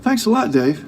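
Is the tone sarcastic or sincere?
sincere. It sounds sincere and genuinely thankful.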